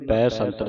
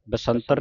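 First: ਪੈ ਸੰਤਰ with an open "bai" first; double-lav "ai" vowel. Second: ਬਸੰਤਰ with a short "ba" first; wrong short vowel. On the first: Teacher correcting students, ਪੈ ਸੰਤਰ with open "ai". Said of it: "ਦਲਾਵਾਂ ਲੱਗੀਆਂ". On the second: Teacher warning students of a misreading, ਬਸੰਤਰ with short "ba". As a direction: say ਬਸੰਤਰ opening on a quick schwa. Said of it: "ਬਸੰਤਰ ਨਹੀਂ ਪੜ੍ਹਨਾ". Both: Shown as a demonstration.

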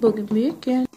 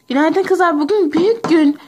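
First: Said in the usual way. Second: Excited. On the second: Acted. Excited announcement to friends.

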